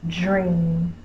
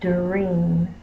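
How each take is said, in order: First: The word begins with a j sound. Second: The word begins with a clear d sound. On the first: The speaker calls it wrong. "a lot of people will say it as dream. They will say j, r, e, m" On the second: The speaker calls it right. "Say it clearly so that ... they are actually saying dream"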